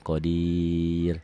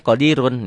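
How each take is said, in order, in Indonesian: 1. Kata berhenti pada suku kata akhir yang dipanjangkan. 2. Kata dilanjutkan dengan akhiran -un. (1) "berubah nama karena berhenti di sini" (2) "Kalau disambungin boleh qadirun"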